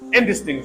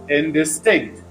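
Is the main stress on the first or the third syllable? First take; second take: first; third. First: The main stress is on the first syllable. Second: The main stress is on the third syllable. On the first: The word is used before a noun. "The main stress is shifted to first syllable" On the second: The word is used after the verb, meaning unclear. "the stress is pronounced where it is shown. That is third syllable"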